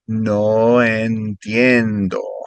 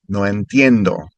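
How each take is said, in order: First: It is said a little more slowly. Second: It is said at a normal speed. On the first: "and then a little slower" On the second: "I'll say it normal"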